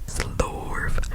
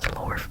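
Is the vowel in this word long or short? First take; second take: long; short. First: The vowel is held long. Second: The vowel is kept short. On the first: The speaker calls it right. "the vowel has like um little triangles there, so it means it's lengthened, so it should be slorf" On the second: The speaker calls it wrong. "not slorf"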